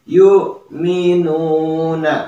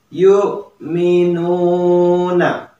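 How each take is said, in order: No difference in how they are said.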